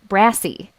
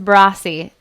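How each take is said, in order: First: The first vowel sounds like the one in 'brass'. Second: The first vowel sounds like the one in 'boss'. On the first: The speaker calls it wrong. "We'd read it as brassy, which is not" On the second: The speaker calls it right. "It is brassy"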